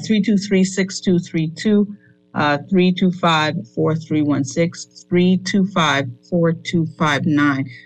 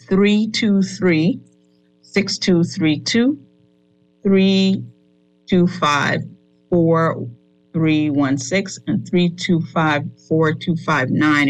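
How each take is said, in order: First: The number is read quickly. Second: The number is read slowly.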